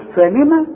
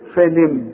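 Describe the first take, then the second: First: The final consonant is followed by a short vowel. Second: The word ends on a silent final consonant. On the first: The reciter continues into the next word. "خلاص النين مفتوح" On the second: The reciter stops on this word. "اذا وقفت على الكلمة دي ... سكن اخر حرف معاك"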